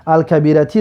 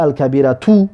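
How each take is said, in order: First: الکبیرتی said with a final kasra, ending in -ti; Arabic case ending -i. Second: الکبیرتو said with a final damma, ending in -tu; Arabic case ending -u. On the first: Teacher giving the preferred Arabic ending, kasra on الکبیرتی. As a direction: end الکبیرتی on a clear short i, al-kabirati. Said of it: "ما گفته بودیم که الکبیرتی را". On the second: Teacher showing students the allowed variant, damma on الکبیرتو. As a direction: end الکبیرتو on a clear short u, al-kabiratu. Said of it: "جایز است ما بگیم که الکبیرتو". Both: Shown as a demonstration.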